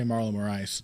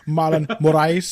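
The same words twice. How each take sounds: First: It has a plain American accent and R. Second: It has a Portuguese accent with a rolled R. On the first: "I have an uneducated American tongue. I'm just going to say" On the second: "I'm like rolling, like dancing off the R there"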